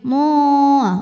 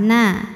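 First: The syllable sounds thick and dark, vowel rounded. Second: The syllable sounds thin and light, vowel open. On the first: The speaker calls it wrong. "jangan ke bawah naknya jadi tebal, misal jadi mo" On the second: The speaker calls it right. "tetap sempurna fathah, na, dan tipis"

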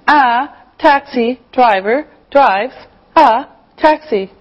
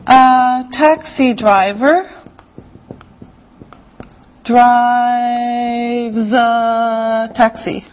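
First: The words are said separately, one by one. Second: The words are run together, linked smoothly. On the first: "So one by one" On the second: "But we put it together. It sounds like this"

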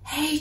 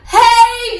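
First: It is said very softly. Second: It is shouted very loudly.

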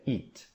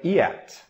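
First: The vowel is a single long ee sound. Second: The vowel is split into two separate sounds. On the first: The speaker calls it right. "eat fica como se fosse a letra I" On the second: The speaker calls it wrong. "E não é yet"

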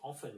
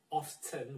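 First: The T sound is silent. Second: The T sound is pronounced. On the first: "some say often without T, it's silent" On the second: "Some say often with T"

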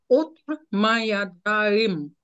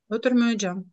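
First: Every syllable is pronounced in full. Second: Some syllables are reduced and run together. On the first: "Це як воно правильно пишеться" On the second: "як вона каже"

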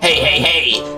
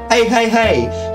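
First: It is said in a put-on character voice. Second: It is said in his normal voice.

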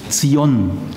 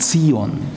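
First: The stress is on the second syllable. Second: The stress is on the first syllable. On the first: The speaker calls it right. "Immer Ton auf der zweiten Silbe bitte" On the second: The speaker calls it wrong. "Sag bitte nicht Zion"

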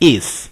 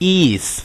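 First: The vowel is a short i sound. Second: The vowel is a long ee sound. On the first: The speaker calls it right. "จริงๆมันออกเสียงเป็น" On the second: The speaker calls it wrong. "หลายคนอ่านเป็นสระอีนะครับอ่านว่า"

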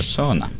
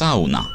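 First: Sauna is said with an English pronunciation. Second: Sauna is said with a Finnish pronunciation. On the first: The speaker calls it wrong. "Pronouncing it like that" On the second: The speaker calls it right. "I'm Finnish. It's sauna"

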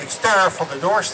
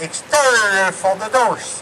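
First: The phrase is said short and clipped. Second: The phrase is said long and drawn out. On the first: "die spreken wat korter" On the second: "Het duurt wat langer"

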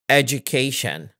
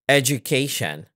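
Both takes have the same delivery.

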